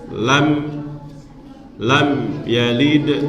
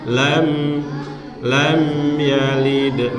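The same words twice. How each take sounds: First: The m sound is cut short abruptly. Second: The m sound flows on smoothly. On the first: The speaker calls it wrong. "Nggak boleh dibaca" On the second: The speaker calls it right.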